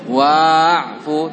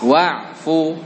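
First: The vowel after the w is held long. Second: The vowel after the w is kept short. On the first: The speaker calls it wrong. "Jadi jangan ada yang baca wa'fu, tidak" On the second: The speaker calls it right. "Tapi pendek. Dianggap tidak ada"

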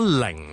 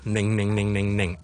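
First: The syllable begins with an L sound. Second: The syllable begins with a nasal N sound. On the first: The speaker calls it wrong. "如果零咧就变咗系" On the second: The speaker calls it right. "N 音"

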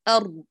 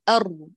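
The two takes are said the same way.

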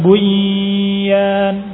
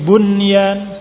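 First: The n merges into the following y. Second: The n is pronounced clearly before y. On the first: The speaker calls it wrong. "bukan bunyan" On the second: The speaker calls it right. "tapi bunyan"

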